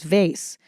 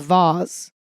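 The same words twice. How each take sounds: First: It is said with an American pronunciation. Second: It is said with a British pronunciation. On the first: "the American is vase" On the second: "the British pronunciation is vase"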